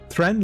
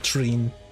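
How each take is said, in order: First: The vowel is a short e sound. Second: The vowel is a long ee sound. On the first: The speaker calls it wrong. "like a short e" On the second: The speaker calls it right. "should it be long, like Treen"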